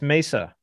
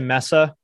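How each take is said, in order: First: The first syllable does not sound like 'mess'. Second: The first syllable sounds like 'mess'. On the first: The speaker calls it right. "It's Mesa" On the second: The speaker calls it wrong. "I'm offended when I hear people say Mesa. ... There aren't two S's"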